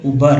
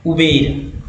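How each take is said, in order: First: उबर with a short neutral middle vowel, OO-bur; उबर, second syllable a short uh; educated pronunciation Uber. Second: उबेर said with a clear e sound, oo-BER; the everyday way people say उबेर, u-behr; उबेर, middle vowel a long e; common pronunciation Uber. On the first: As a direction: say उबर the way well-read people do, no e sound. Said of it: "वो बोलते हैं उबर". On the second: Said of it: "लोग इसे उबेर बोलते हैं". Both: Shown as a demonstration.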